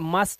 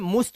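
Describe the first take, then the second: First: The vowel sounds like 'uh' in 'cup'. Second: The vowel sounds like 'oo' in 'put'. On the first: The speaker calls it right. "ये मस्ट है" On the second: The speaker calls it wrong. "ये मुस्ट नहीं है"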